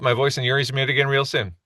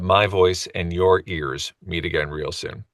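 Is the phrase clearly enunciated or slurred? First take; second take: slurred; clearly enunciated. First: The words run together and are not crisply articulated. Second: Each word is articulated crisply and separately. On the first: The speaker calls it wrong. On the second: The speaker calls it right.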